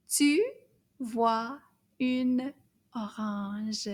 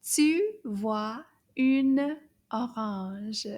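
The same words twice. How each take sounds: First: Tu vois une orange spaced word by word. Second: Tu vois une orange slow and linked; slow and smooth. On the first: Teacher reading the whole sentence, word by word. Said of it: "Toute la phrase". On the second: Teacher's second, smoother read, slow. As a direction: glide through tu vois une orange slowly. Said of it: "Encore, we'll say it again". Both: Shown as a demonstration.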